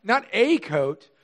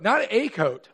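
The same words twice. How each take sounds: First: "Not a coat" drawn out slowly, each word weighted; slow stressed repeat. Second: "Not" hit first and firm; stress on NOT. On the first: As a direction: stretch "Not a coat" with a beat on every word. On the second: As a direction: punch "Not" in "Not a coat". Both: Shown as a demonstration. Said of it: "I wanna point this out".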